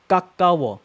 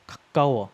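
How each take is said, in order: First: 가까워 loud, both consonants hard and tense; tense first consonant. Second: 가까워 with a light, airy start, then tense 까; barely touch the first sound of 가까워, punch the middle; soft first consonant. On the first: Teacher alternating top and bottom, 가까워 tense from the start. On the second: Teacher alternating top and bottom, 가까워 soft at the start. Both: Shown as a demonstration.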